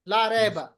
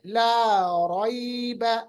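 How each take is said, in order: First: The middle vowel is short and clipped. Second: The middle vowel glides softly and smoothly. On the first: The speaker calls it wrong. "Urdu में पढ़ेंगे रैबा" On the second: The speaker calls it right. "मलायम पढ़ना है, जैसे ... वेव की तरह"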